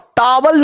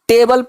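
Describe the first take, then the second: First: The first vowel is an open 'ah' sound. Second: The first vowel is an 'ay' sound. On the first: The speaker calls it wrong. "अब टावल नहीं पढ़ते" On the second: The speaker calls it right. "इसको टेबल पढ़ते हैं"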